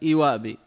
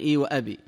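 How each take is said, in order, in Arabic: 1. تُحذف الهمزة قبل 'abi'. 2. تُنطق الهمزة قبل 'abi'. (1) "ويخففون الهمزة، همزة الأب" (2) "يعني"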